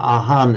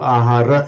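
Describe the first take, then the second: First: The word ends with an 'n' sound. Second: The word ends with a 'ra' syllable. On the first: This is the Thai pronunciation. "Ahan it's pronounced in Thai" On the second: This is the Sinhala pronunciation. "so ahara in Sinhala"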